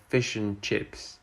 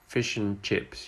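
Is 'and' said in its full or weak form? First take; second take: weak; weak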